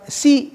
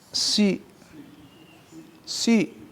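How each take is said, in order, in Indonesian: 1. Bunyi s ringan dan tipis. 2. Bunyi s berat dan penuh. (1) "bukan si" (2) "tapi si si"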